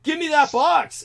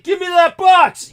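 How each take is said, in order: First: A high replay of the demand, no real shout; milder retold demand. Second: High, loud, slow demand; loud, slow, high shouted command; retold shout. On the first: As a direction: repeat the order at plain volume. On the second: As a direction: bark the order at the thief. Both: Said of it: "everything I was shouting at that guy".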